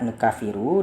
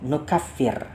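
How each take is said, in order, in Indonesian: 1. Kata ini berakhir dengan vokal u. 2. Kata ini berakhir pada konsonan r. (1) "dengan nun dan juga rofaknya ro" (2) "baca dengan nun dan juga jazm"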